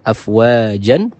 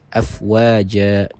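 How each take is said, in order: First: The word ends with an n sound. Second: The word ends with a long a vowel. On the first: This is the original form with tanwin. "Yang aslinya afwajan" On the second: This is the form used when stopping on the word. "kita buang tanwinnya dan dijadikan huruf yang berharokat fathah dengan ditambahkan panjang dua harokat"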